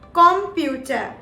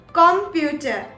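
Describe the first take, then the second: First: It is pronounced the German way. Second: The same.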